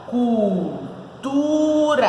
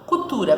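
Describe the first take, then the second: First: Cultura drawn out very slowly, syllable by syllable: cul, tu, ra; split into syllables. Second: Said in the usual way. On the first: Shown as a demonstration. Teacher showing the class how to separate it, Cultura in slow syllables. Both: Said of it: "como que a gente separa?".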